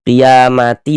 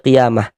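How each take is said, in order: First: The ending is read with a t sound. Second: The ending is read with an h sound. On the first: The reading continues without stopping. "langsung kita sambung gitu, maka panjang yang dibaca huruf huruf ta" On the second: The reading stops at this word. "kalau berhenti di sini kita baca qiyamah"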